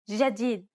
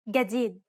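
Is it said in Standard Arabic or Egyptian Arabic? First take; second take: Standard Arabic; Egyptian Arabic. First: It is said in Standard Arabic. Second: It is said in Egyptian Arabic.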